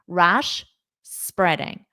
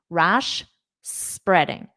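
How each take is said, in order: First: There is a clear pause between the words. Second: The same.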